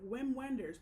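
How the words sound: The name is read the American way.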